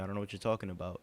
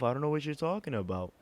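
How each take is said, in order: First: It is said in a firmer, serious voice. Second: It is said in a whiny, irritating voice. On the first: The speaker feels confronted and defensive. "a little bit more serious" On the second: The speaker is mocking and dismissive. "in the most annoying voice possible"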